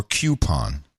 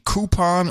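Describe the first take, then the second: First: Coupon said as KYOO-pon; first syllable of coupon as "cue", with a y glide; KYOO-pon pronunciation. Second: Coupon said as KOO-pon; first syllable of coupon as "koo", no y sound; KOO-pon pronunciation. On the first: Co-host offers the other official pronunciation, coupon as KYOO-pon. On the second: Co-host asks host about the official pronunciation, coupon as KOO-pon. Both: Shown as a demonstration. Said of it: "Is the official pronunciation coupon or coupon?".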